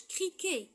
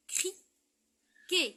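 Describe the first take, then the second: First: Said in the usual way. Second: CRIQUET as cri ... quet, high and loud on quet; long gap before the quet of "criquet"; criquet split into syllables. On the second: Shown as a demonstration. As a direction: break "criquet" in two for the class. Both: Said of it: "il y a un son qui est répété".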